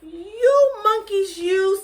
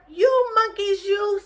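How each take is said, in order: First: High, loud, slow scolding of monkeys; peddler scolding. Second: High, loud, sing-song scold; peddler scolding again. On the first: Peddler scolds the monkeys from below, loud and high. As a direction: wag a finger and scold them shrilly. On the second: Teacher repeats the peddler scolding the monkeys, high and loud. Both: Acted. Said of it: "shaking his finger at them".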